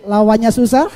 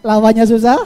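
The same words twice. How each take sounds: The two takes are said the same way.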